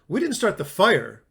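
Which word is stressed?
fire. The stress is on "fire".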